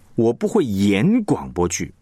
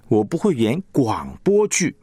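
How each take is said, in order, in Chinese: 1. 重音在“演”上。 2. 重音在“广播剧”上。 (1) "意思就是我只会写广播剧。我不会演，真的不会演。" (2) "可能你会演歌仔戏哈"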